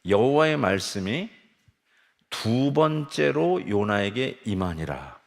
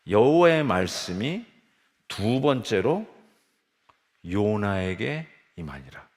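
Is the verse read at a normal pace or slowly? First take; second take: normal; slowly. First: The verse is read at a normal pace. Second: The verse is read slowly and deliberately.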